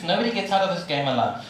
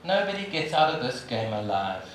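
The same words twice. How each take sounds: First: Nobody said firmly, the rest falling; stress on nobody. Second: Quiet repeat. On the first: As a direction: lean on nobody, plain truth. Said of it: "Here's the truth". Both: Shown as a demonstration.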